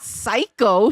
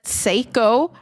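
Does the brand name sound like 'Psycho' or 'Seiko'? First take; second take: Psycho; Seiko. First: The name is said as 'Psycho'. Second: The name is said as 'Seiko'. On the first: The speaker calls it wrong. "but it's not Psycho" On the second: The speaker calls it right. "I don't know if that's how you pronounce it"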